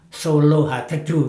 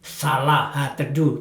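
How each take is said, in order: First: The first word is said with an 'o' vowel. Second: The first word is said with an 'a' vowel. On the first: "tapi sebetulnya bacanya ... Kalau A dibaca di Jawa kan O" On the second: "Itu namanya"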